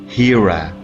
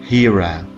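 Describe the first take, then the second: Both takes have the same delivery.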